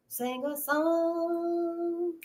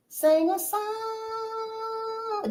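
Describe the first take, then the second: First: Drawn-out sung line, much slower; sung, stretch each word out in song; soft sustained singing; sung slowly. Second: High, very slow sung line; sung, hold every word as a long high note; soft, high, sustained singing; sung slowly, high. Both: Shown as a demonstration.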